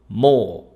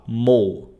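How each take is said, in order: First: The vowel is drawn out long. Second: The vowel is short and clipped. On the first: The speaker calls it right. "você puxa o som" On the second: The speaker calls it wrong. "você não fala mo"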